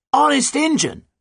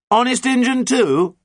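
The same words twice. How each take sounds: First: Very high, loud, emphatic oath; shouted. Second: High, loud, slow doubting question; doubtful. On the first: Pirate captain confirms her oath to the doubter, shouting. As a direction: yell it back as a firm promise. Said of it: "shouted Nancy". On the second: Captain questions the pirate's oath, doubtful. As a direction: draw it out doubtfully, still calling up. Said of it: "said John doubtfully". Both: A narrator's reading.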